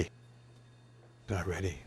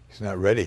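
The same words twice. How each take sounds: First: Much softer and slow, trailing off; quiet sad repeat. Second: Said in the usual way. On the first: Retold or imitated. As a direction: let the worry sink into a hushed echo. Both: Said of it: "I was so emotional".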